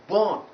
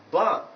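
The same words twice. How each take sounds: First: "born" with a rounded O, like "bawn"; the wrong burn, said as "born"; mistaken O vowel. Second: "burn" with an open central vowel, no R, like "bahn"; correct vowel eleven. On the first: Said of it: "not born". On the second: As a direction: say "burn" as "buhn", unrounded. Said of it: "it is pronounced as burn". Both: Shown as a demonstration.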